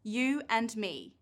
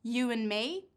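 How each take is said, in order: First: "You and me" slowly with the d of "and" sounded; full written sounds. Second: "You and me" with the d of "and" dropped; deleted sound. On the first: Teacher reading sentences to learners, every sound kept. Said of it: "Now look at these three sentences". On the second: Teacher testing learners' ears, d deleted. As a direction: say "and" as 'an' in "You and me". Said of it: "Can you hear the t, d, or h". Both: Shown as a demonstration.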